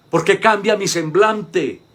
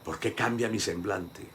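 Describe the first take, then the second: First: Loud, slow, stretched-out ¿Por qué cambia mi semblante, pushed hard on cambia; preacher booming the question out slowly. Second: Softer ¿Por qué cambia mi semblante?, turned inward; quiet repeat. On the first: To the congregation, a loud, slow challenge. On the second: Preacher repeats the question quietly to himself. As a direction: murmur the question back to yourself. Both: Shown as a demonstration.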